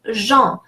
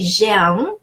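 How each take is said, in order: First: Jean as one nasal syllable, "zhahn"; dropped E. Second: Jean wrongly with the E sounded before the nasal vowel; wrong pronunciation. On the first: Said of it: "sometimes it gets dropped". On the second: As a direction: mispronounce Jean as "zhe-ahn". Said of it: "I'm never gonna say". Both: Shown as a demonstration.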